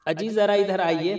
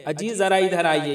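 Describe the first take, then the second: First: Raised, louder call of "अजी"; wife calling husband. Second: Said in the usual way. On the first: Shown as a demonstration. Wife calling her husband to come over, louder call. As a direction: call your husband over from across the room. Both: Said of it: "बुलाती है ना बीवी शौहर को".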